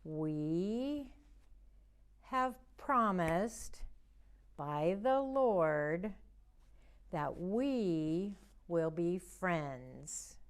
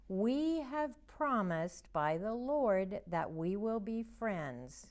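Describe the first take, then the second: First: Slow, word by word, for signing along; slow signing recital. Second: Said in the usual way. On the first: Shown as a demonstration. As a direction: stretch each word for the signs. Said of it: "Let's do that one more time". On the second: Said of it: "Our memory verse today is".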